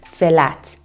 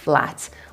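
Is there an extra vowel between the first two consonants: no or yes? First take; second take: yes; no. First: An eh vowel splits the opening f and l. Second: The opening f and l run straight together. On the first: "there's usually an eh sound added between the two" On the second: "instead of"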